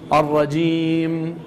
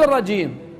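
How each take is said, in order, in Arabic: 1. تنتهي الميم الأخيرة بإطباق الشفتين، مع حبسهما بمقدار متوسط. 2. تُنطق الميم الأخيرة بإخراج صوت مفتوح من الحلق. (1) "أريد بالأخير ميم بإطباق الشفتين بمقدار توسط" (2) "لا تقول الرجيم، لا تفتح حلقك بالأخير"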